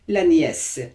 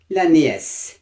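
The two takes are said the same way.

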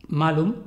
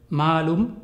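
First: Malum with a short first A; short vowel. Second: Malum with a long, drawn-out first A; long vowel. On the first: Teacher contrasting two Latin words, short vowel in malum. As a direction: keep the A in malum brief. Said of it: "o la vocal breve". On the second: Teacher contrasting two Latin words, long vowel in Malum. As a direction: stretch the A in Malum, rising at the end. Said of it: "si tenían la vocal larga". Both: Shown as a demonstration.

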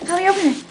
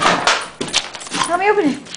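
First: Said in the usual way. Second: Whisper. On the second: Real, not acted. Coaxing dog, one take whispered.

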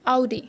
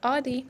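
First: Audi as ow-dee; correct pronunciation. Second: Audi as aw-dee; wrong pronunciation. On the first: Teacher modelling ow-dee. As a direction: open Audi with 'ow'. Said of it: "not Audi". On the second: Teacher showing the mistake aw-dee. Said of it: "wrong है ये". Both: Shown as a demonstration.

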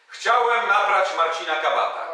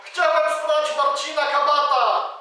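First: Shouted on demand. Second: Loud, high forced confession; full-voice shout. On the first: Shown as a demonstration. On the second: Acted. Robber yelling the confession as Marcin orders, full shout. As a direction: shout it out for everyone to hear. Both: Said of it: "krzyknij na cały głos".

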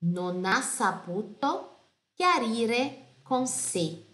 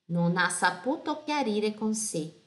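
First: Non ha saputo chiarire con sé read very slowly; slow careful reading. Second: Said in the usual way. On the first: Shown as a demonstration. Teacher reading the lyric slowly for students. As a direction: draw each word out for students. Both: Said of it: "perché".

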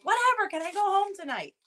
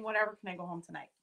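First: Higher mock kid voice, shrugging it off; imitating bored son. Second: Fast and softer, tossed off; quick flat retelling. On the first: Son hears about stitches, answers in mock bored kid voice. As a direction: play the unbothered little boy who only wants home. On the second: Retold or imitated. Mom repeats son's answer, quick and soft. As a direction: rattle it off under the breath. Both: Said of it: "he was honestly saying".

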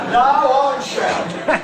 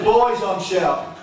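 First: Loud, high NO, then firm; emphatic insistence. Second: Raised, pleased voice to the room; happy announcement. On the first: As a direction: overrule them with a raised voice. Winner overrides their guilty refusal. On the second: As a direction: announce a round for everyone. Winner offers drinks to all. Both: Acted.

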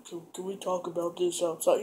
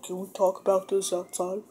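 First: Low, quiet, trying to keep calm; hushed cool. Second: Hushed serious. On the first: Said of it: "trying to be all cool about it". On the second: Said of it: "like, it's, like, real serious". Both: Retold or imitated.

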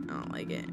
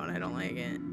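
First: Barely voiced, uneasy whisper; whispered unease. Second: Low, soft, uneasy grumble; uneasy aside. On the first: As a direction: whisper it to yourself, creeped out. Repeats it under breath. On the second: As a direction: shrink back, voice dropping. Uneasy at creepy doll, repeats it. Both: Real, not acted.

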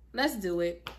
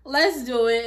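First: Said in the usual way. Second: "Let's do it" punched out louder, pumped; rally yourself up, louder this time; louder hype. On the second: Shown as a demonstration. Hyping herself up for the new job, louder.

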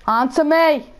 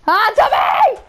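First: Said in the usual way. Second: Shouted higher and louder at the enemy; angry shout. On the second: Real, not acted. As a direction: yell it at the player who killed you. Yelling at opponent in game.

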